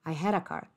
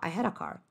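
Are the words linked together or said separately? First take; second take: linked; linked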